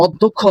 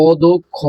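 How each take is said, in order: First: Said in the usual way. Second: অদক্ষ slowly split into syllables, o-do-kho; teacher spelling out অদক্ষ by sound, slowly; broken-up pronunciation. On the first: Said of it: "তুমি লিখবা অদক্ষ". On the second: Shown as a demonstration. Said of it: "ভেঙে লিখবা".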